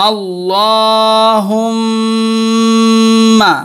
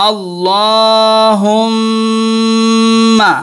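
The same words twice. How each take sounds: Both takes have the same delivery.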